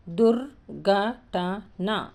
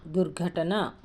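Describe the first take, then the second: First: దుర్ఘటన very slowly, each syllable on its own. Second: Said in the usual way. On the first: Shown as a demonstration. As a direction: pause between the parts of దుర్ఘటన. Teacher breaks word into syllables.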